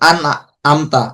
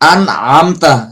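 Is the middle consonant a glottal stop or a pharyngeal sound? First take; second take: glottal stop; pharyngeal. First: The middle consonant is a plain glottal stop. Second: The middle consonant is a deep throat sound. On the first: The speaker calls it wrong. "অনেক সময় এরকম বলবে" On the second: The speaker calls it right. "যেমন সূরা ফাতিহার মধ্যে আন আমতা"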